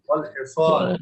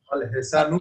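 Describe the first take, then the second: First: The word ends without an added n sound. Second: The word ends with an added n sound. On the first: The speaker calls it right. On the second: The speaker calls it wrong. "ওয়াল হিসানুন না"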